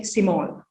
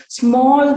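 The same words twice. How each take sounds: First: "small" with an "i" between s and m; inserted vowel. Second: Said in the usual way. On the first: Shown as a demonstration. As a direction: say "small" as si-mall. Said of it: "they insert the". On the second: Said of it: "they say small".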